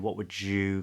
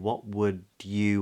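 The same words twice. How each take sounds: First: The d and y merge into j. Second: The d and y stay separate sounds. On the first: "you'll hear a lot of people saying" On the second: "with a D"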